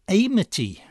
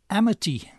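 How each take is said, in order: First: The first vowel is a gliding diphthong. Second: The first vowel is a short plain vowel. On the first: The speaker calls it wrong. "I pronounced the initial A of Amity as a diphthong, the way we pronounce it in amiable or atheists" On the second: The speaker calls it right. "her name is actually pronounced with a short initial A, as in amble or amnesia"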